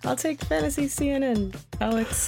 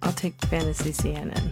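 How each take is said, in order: First: It is said with extra, game-show energy. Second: It is said plainly, without extra energy.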